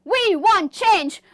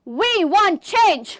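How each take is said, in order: Both takes have the same delivery.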